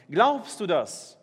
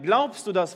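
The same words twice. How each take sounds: First: Glaubst du das drawn out very slowly, each word weighed; slow repeated question. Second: Said in the usual way. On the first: Shown as a demonstration. Pastor repeats Jesus' question to the congregation, slow and pointed. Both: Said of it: "fragte sie".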